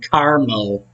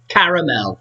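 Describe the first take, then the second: First: It is said with an American accent. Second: It is said with a British accent. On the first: "rather than" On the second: "She says certain words in a very British way"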